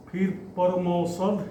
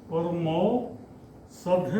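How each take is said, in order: First: Said in the usual way. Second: परमौसध drawn out slow and softer; slow softer repeat. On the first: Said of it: "teacher dictates word list". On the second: Shown as a demonstration. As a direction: repeat परमौसध slowly for the students to write. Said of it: "slow repeat for students". (परमौसध धीरे और धीमी आवाज़ में दोहराना)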